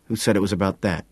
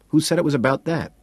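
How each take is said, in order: First: Clipped, tense query, held level; tense, guarded question. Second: Insistent, raised repeat. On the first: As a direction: ask it tightly, holding back irritation. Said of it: "he asks tensely". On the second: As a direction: press the question harder. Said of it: "he asks again". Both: A narrator's reading.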